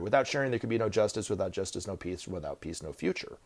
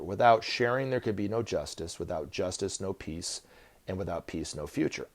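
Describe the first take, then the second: First: It is said at normal speed. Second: It is said more slowly.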